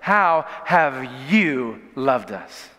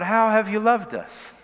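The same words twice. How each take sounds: First: It sounds like a challenging, accusing demand. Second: It sounds like a sincere, humble request. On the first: The asker doubts the claim and challenges it. "Here's how it's framed" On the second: The asker genuinely wants to be shown. "Like, would you show us the ways?"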